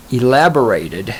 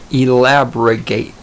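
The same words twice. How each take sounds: First: Said in the usual way. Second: "elaborate" slowly garbled as "elabrigate"; garbled word. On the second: Real, not acted. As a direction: stumble slowly through "elaborate," adding a stray g sound. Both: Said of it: "is the word I'm looking for".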